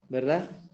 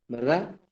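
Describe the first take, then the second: The two takes are said the same way.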